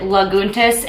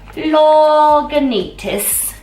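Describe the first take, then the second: First: The name is said with three syllables. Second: The name is said with four syllables. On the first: The speaker calls it wrong. "a lot of people call it Laguntas. It is not called" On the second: The speaker calls it right. "it is called Lagunitas"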